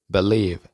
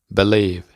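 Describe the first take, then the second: Both takes have the same delivery.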